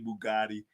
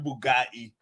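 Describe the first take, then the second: First: Bugatti is said with an ordinary, plain pronunciation. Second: Bugatti is said with an imitated, exaggerated pronunciation. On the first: The speaker calls it wrong. "You can't say it regular" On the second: The speaker calls it right. "You gotta say it like that"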